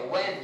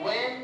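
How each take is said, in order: First: "when" with the h sounded; wrong pronunciation. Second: "when" said as "wen", no h; silent h. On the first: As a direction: say "when" wrongly, voicing the silent h. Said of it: "हाँ silent रहेगा, when, when नहीं". ("when" में h का उच्चारण करते हुए) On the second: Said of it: "हाँ silent रहेगा". ("when" में h silent, "वेन") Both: Shown as a demonstration.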